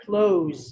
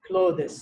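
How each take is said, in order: First: Close, rhyming with close the door, louder; natural pronunciation. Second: Clothes with a full th and extra -es syllable; clothes said as written, th pronounced; spelling pronunciation. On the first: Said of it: "ئەو ها دەخینەوە". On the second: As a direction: read clothes the way it is spelled, th sounded. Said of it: "we don't say clothes". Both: Shown as a demonstration.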